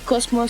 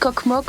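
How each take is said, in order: First: The name is read with s sounds: Cosmos. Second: The name is read with k sounds: Kokmok. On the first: It is how the name is actually said. The speaker calls it right. "mais c'est Cosmos, ça se dit" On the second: It is how the letters look when read as Latin letters. The speaker calls it wrong. "ça s'écrit Coq-Moq"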